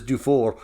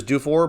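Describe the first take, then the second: First: "Dufour" said the Quebec French way, final r softened away; Francophone pronunciation. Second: "Dufour" said the English way, ending in a sounded r; Anglophone pronunciation. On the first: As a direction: say "Dufour" as a French announcer would, with barely any r. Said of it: "he's Francophone from Quebec". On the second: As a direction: give "Dufour" its English reading, final r kept. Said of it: "people that are Anglophone". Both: Shown as a demonstration.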